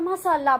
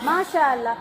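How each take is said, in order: First: It is said quickly, as in casual talk. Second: It is said slowly with careful articulation. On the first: "டக்குல டக்குன்னு பேச்சு வாக்கல" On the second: "எப்படி சொல்லணும்"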